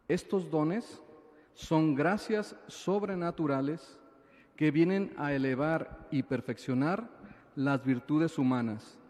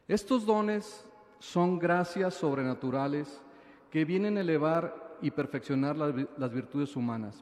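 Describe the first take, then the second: First: It is said noticeably more slowly. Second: It is said at a normal speed.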